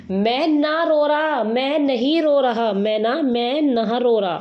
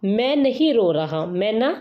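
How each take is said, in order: First: Drawn-out, higher-pitched mock whine; mock tearful denial. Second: Said in the usual way. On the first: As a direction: slowly stretch it out like a pretend crybaby. Acted tearful denial as mnemonic. (रोने का नाटक करते हुए खींचकर)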